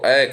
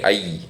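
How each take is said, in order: First: The vowel is said the Hindi way. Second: The vowel is said the Sanskrit way. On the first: The speaker calls it wrong. "Hindi में हम लोग अय को अय कहते हैं" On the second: The speaker calls it right. "Sanskrit के जो विद्वान है वो कहते हैं उसे अय को ऐसे नहीं उच्चारण करना चाहिए"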